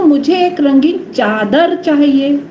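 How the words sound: The stress is on चादर.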